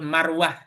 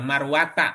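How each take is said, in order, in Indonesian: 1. Kata ini berakhir dengan bunyi 'h'. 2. Kata ini berakhir dengan suku kata 'ta' bersuara. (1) "Kalau dibacanya dibaca sukun marwah" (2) "marwata kan"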